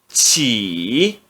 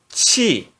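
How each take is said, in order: First: The syllable is said in the third tone. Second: The syllable is said in the fourth tone. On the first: "No terceiro tom" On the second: "E no quarto tom"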